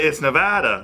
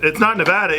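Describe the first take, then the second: First: "Nevada" falling, with a laugh; mock correction. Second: "Nevada" pitched high as the wrong version; mock correction. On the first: Echoing a friend's slogan, falling laughed "Nevada". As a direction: drop "Nevada" at the end as the supposed right one. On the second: Echoing a friend's slogan, high-pitched "Nevada". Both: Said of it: "saying it with Cantonese tones".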